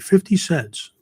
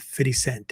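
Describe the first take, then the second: First: The last word ends with an s sound. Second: The last word ends without an s sound. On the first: The speaker calls it wrong. "I would just say fifty cents, but uh, apparently that's not right" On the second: The speaker calls it right. "I think that's the correct way to pronounce it"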